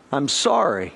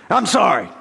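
First: Said in the usual way. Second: A grudging, throwaway "I'm sorry"; a sulky child's token "I'm sorry"; half-hearted apology. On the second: Retold or imitated. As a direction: mumble "I'm sorry" like you don't mean it. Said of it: "half-hearted attempts".

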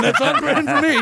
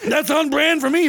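First: Laughing. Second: Said in the usual way. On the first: Real, not acted.

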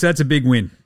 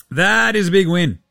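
First: Said in the usual way. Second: Big punched higher and louder; stress on big. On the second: Shown as a demonstration. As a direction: lean hard into big.

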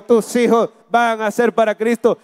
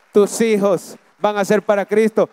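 First: Louder repeat. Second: Loud declaration. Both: Shown as a demonstration. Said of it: "Lo voy a decir de nuevo".

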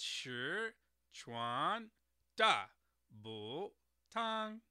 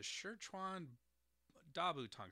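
First: "Sichuan Dabutang" syllable by syllable, slowly, with exaggerated Mandarin tones. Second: Said in the usual way. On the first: Shown as a demonstration. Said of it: "correct tones on that". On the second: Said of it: "let me try and get that correct".

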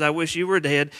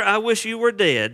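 First: Said in the usual way. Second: Shocking demand. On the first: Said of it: "That's what he says". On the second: Retold or imitated. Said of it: "He says to his father".

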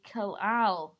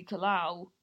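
First: "Kalal" ending on a clear L, as in "Al"; corrected name pronunciation. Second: "Kalau" ending in a rounded "ow" sound; mispronounced name. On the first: Shown as a demonstration. Explaining how the child's name really goes, correctly pronounced "Kalal". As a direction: finish "Kalal" on a proper L, not "ow". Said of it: "But it's actually Kalal". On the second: Retold or imitated. Apologising to the kid with the wrong sound, mispronounced "Kalau". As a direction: say "Kalau" with the L swallowed into a vowel. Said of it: "supposed to say it with an A L".

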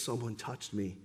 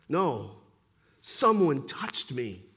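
First: Much softer, low and firm; quiet insistence; insistent Jesus, hushed. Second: Low, firm and slow; insistent Jesus. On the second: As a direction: calmly hold your ground. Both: Acted. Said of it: "Jesus insists".

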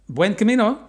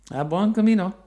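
First: Bright loud greeting called across; calling out. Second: Loud cheerful call, falling at end. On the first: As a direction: call out a cheerful hello. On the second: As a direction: shout the farewell warmly. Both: Retold or imitated. Greeting a passing pilgrim.

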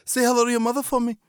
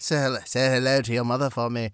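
First: Put-on accent slipping to Liverpool. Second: Put-on retry Boston accent. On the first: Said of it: "became [name] there for a second". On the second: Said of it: "Slipping accents is really".

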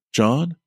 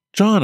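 First: Said in the usual way. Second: High, loud cry of his name; calling out. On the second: Acted. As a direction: shout his name in alarm. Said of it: "I cried out".

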